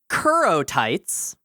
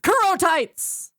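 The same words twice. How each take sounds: First: It is said in a flat reading voice. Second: It is said excitedly, like an exclamation.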